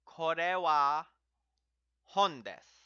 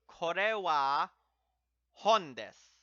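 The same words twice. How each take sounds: First: "Kore wa hon desu" again, louder and steady; repeat for students. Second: "Kore wa hon desu" said louder with kore rising; model sentence. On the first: Teacher repeats the book sentence for students, louder. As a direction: repeat the model line. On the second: Teacher models the book sentence, louder and clear. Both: Shown as a demonstration. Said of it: "same formula".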